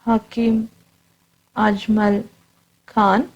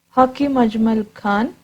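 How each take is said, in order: First: Hakim, Ajmal, Khan, each word said alone with a long pause after it; word by word dictation. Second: Said in the usual way. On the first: Shown as a demonstration. Teacher to class, dictating a name for notes, slow word by word. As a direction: spell out Hakim Ajmal Khan slowly for students to write down. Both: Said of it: "teacher repeats name for dictation".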